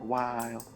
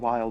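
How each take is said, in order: First: The vowel is drawn out, in a southern drawl. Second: The vowel is short, in a plain accent. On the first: "they say like while" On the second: "instead of saying while"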